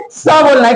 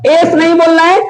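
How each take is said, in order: First: स as a phonic sound. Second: एस pronounced as the English letter name. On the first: Teacher answers what to say, phonic S. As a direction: say स as "sa", s first, then open vowel. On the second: Teacher tells learners what not to say, letter name S. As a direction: say एस as "es", vowel first. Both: Shown as a demonstration. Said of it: "आपको क्या बोलना है".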